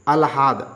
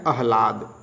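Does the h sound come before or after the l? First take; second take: after; before. First: The l sound comes before the h. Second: The h sound comes before the l. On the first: The speaker calls it wrong. "अशुद्ध है अलहाद" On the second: The speaker calls it right. "शुद्ध क्या है?"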